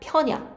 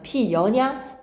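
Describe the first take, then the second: First: One syllable, with the vowels merged into a diphthong. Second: Two syllables, with a glide added before the second. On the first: The original vowel has turned into a semivowel. "반모음화는 원래 있던 모음이 반모음으로 바뀌는 것이다" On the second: A semivowel has been inserted. "반모음 첨가는 말 그대로 없던 모음이 첨가가 되어서 피다닥이 어가 피여가 되는 것이고"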